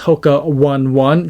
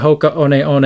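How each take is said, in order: First: One One is said as the English number one. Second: One One is not said as the English number. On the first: The speaker calls it wrong. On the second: The speaker calls it right.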